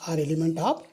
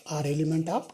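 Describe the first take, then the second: No difference in how they are said.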